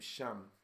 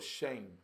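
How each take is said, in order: First: The word is said the English way, Shem. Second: The word is said the Hebrew way, like shame. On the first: "We say Shem because that's the English pronunciation" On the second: "but I believe it's like shame"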